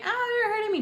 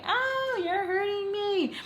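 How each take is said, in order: First: Retold pained cry again. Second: Retold pained cry. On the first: Girlfriend clutching her leg in the car, high pained cry. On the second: Girlfriend to boyfriend squeezing her thigh, high pained cry. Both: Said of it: "I scream out and say".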